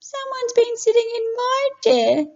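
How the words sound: It is a high, small, squeaky voice.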